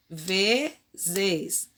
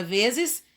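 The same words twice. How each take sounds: First: "vezes" split slowly as ve-zes; syllable by syllable. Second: Said in the usual way. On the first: Shown as a demonstration. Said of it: "eu separo vezes". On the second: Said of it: "pede pra gente separar essas sílabas".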